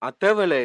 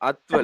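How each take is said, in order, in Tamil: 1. 'at' மற்றும் 'vala' இடையே ஒரு கூடுதல் உயிரெழுத்து ஒலிக்கிறது. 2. 'at' மற்றும் 'vala' இடையே எந்த உயிரெழுத்தும் ஒலிக்கவில்லை. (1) "அத்தவல இல்ல"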